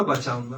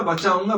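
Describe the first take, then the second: First: बचाऊंगा dropped low and soft; बचाऊंगा trailing off, lower and quieter; fading repeat. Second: Said in the usual way. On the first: Acted. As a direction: let बचाऊंगा fade away low and soft. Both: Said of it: "काल मैं तुम्हें बचाऊंगा".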